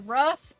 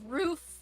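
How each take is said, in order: First: The vowel sounds like 'uh'. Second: The vowel sounds like 'oo'. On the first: This is how people in Ohio say it. The speaker calls it wrong. "they don't speak properly" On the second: This is the standard way to say it. The speaker calls it right. "instead of roof"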